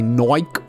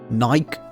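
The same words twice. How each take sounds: First: It is said in an Australian accent. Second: It is said in a standard accent.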